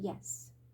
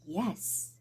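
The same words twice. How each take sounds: First: The yes sounds offhand and superficial. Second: The yes sounds warm and sincere. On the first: The speaker does not really mean it. The speaker calls it wrong. "you could be very superficial about it" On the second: The speaker truly means it. The speaker calls it right. "they would know you mean it"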